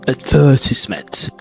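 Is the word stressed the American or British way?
British. The stress falls where British speakers put it. "instead of advertisement"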